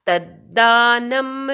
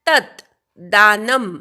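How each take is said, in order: First: The two words are merged into one sound. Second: The two words are said as separate units.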